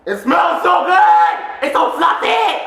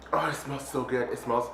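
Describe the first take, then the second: First: High, loud, stretched-out squeal; excited shout. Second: Soft, low-key swoon; quiet savouring. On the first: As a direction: shout it, completely carried away. Same words, carried away by excitement. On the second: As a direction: savour it softly, almost to yourself. Savours the smell. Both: Real, not acted.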